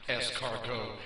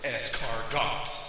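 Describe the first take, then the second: First: The final consonant is silent. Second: The final consonant is pronounced. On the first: The speaker calls it right. "tell him it's pronounced" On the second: The speaker calls it wrong. "the fool is that says Chevrolet and takes a girl to dinner and orders"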